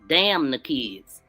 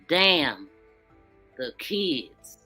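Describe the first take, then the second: First: It is said straight through without a pause. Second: There is a pause after the first word. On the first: The kids are cursed and not cared about. "The way that he wrote that" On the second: Someone is worried about what happens to the kids. "when I'm going to read it with the apostrophe"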